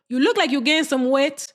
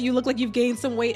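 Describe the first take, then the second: First: It is said in an imitated auntie's voice. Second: It is said in the speaker's own normal voice. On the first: A relative is saying it. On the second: The speaker is quoting it plainly.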